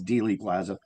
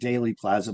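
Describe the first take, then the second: First: The first syllable sounds like 'dee'. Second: The first syllable sounds like 'day'. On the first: The speaker calls it right. "but it's Dealey Plaza" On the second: The speaker calls it wrong. "I was calling it Daily Plaza"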